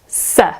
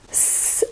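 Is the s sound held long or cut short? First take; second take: short; long. First: The s sound is cut short and clipped. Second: The s sound is held long and hissing. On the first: The speaker calls it wrong. "not s" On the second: The speaker calls it right. "s is actually pronounced s"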